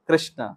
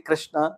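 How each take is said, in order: First: The word ends with a light short vowel. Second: The word ends on a bare consonant. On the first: The speaker calls it right. "उसमें अकार का भी उच्चारण है, हल्का सा है" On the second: The speaker calls it wrong. "तो वो भी ठीक नहीं है"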